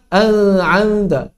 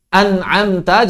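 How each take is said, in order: First: The n sound is blurred and not fully said. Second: The n sound is said fully and clearly. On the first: The speaker calls it wrong. "jangan dibaca" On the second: The speaker calls it right. "Juga tanpa menyamarkannya"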